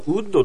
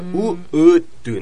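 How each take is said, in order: First: It starts with a plain, flat u vowel. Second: It starts with rounded lips gliding into u. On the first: The speaker calls it wrong. "日本じゃウッドとしか覚えてないんだけど" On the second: The speaker calls it right. "一番最初に口を尖らすウが来て、その後にウーが出てくるの"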